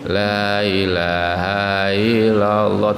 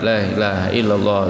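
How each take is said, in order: First: The phrase is drawn out very slowly. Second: The phrase is said very fast. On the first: "Ada yang lama banget juga ngantuk gitu" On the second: "ada zikir cepat banget"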